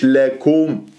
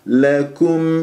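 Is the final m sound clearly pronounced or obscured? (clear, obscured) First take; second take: obscured; clear. First: The final m is weakened and not fully pronounced. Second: The final m is pronounced fully and clearly. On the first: The speaker calls it wrong. "مش لكم" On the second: The speaker calls it right. "فانتبه ميم مظهرة"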